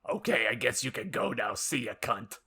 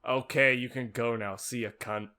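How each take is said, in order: First: It is said in a Doctor Girlfriend voice. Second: It is said flat and deadpan.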